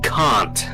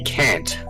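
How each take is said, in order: First: The word is said with a non-American accent. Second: The word is said with an American accent. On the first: "you're pronouncing it in my tongue" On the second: "where in your pronunciation it would be can't"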